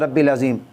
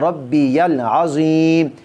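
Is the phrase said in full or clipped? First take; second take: clipped; full. First: The phrase is rushed and a syllable is dropped. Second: Every syllable of the phrase is said fully. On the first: The speaker calls it wrong. "उनको जल्दी होती है" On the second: The speaker calls it right. "ये तस्बीह हम पढ़ते हैं"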